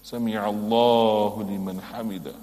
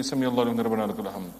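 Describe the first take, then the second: First: Proper recitation. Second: Fast, slurred, words run together; rushed recitation. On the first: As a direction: say every word with care. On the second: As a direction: gabble the phrase carelessly. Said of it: "don't just say". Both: Shown as a demonstration.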